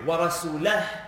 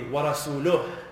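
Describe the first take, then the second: First: The vowel before the final 'hu' is 'a'. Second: The vowel before the final 'hu' is 'u'. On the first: God also disowns the Messenger. The speaker calls it wrong. "if we read it the wrong way" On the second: The Messenger also disowns the polytheists. The speaker calls it right. "If we read it properly"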